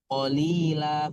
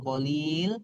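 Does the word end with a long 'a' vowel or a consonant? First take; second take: long vowel; consonant. First: The word ends with a long 'a' vowel. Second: The word ends on the consonant 'l'. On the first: The speaker calls it right. "mat iwad jadi ber- ber- berubah. Qalila bukan qalil" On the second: The speaker calls it wrong. "bukan qalil"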